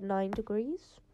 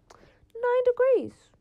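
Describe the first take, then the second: First: Said in the usual way. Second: High, loud, drawn-out disbelief; incredulous outcry. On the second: Real, not acted. Vlogger appalled by Melbourne's cold, incredulous high outcry. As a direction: wail it slowly, way up high, appalled at the figure.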